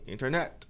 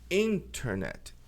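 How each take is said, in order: First: The stress is not on the first syllable. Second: The stress is on the first syllable. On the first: The speaker calls it wrong. "não é internet" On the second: The speaker calls it right. "a sílaba tônica é in"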